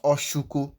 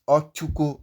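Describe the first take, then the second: First: "oshuko" with a hushing sh in the middle. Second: "ochuko" with a clear ch stop in the middle. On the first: Teacher showing the mistaken name, sh in oshuko. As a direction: say "oshuko" with sh replacing the ch. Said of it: "not oshuko". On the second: Teacher giving the correct name, ch in ochuko. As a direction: say "ochuko" with ch, never sh. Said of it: "So it is ochuko". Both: Shown as a demonstration.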